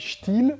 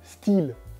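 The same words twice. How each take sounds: First: It is pronounced the German way. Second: It is pronounced the way French ads say it. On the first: This is how it is said in German. "En allemand, ça se dit Stihl" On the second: This is how French ads say it. "quand on voit des publicités françaises, ils disent, ils disent Stihl"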